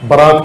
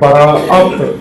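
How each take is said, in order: First: Said as two syllables with no glottal catch. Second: Said with a glottal catch before the last vowel. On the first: The speaker calls it wrong. "برات کہتے ہیں۔ اصل کیا کہنا چاہیے تھا؟" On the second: The speaker calls it right. "الف جو بیچ میں اس پر حمزہ ڈال کے براءت"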